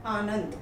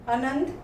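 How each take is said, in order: First: Said in the usual way. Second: आनंद with short opening "a"; mispronounced. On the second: Shown as a demonstration. Teacher reads the error list, mispronounced आनंद as short "anand". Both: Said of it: "कुछ तो मात्रा संबंधी हैं".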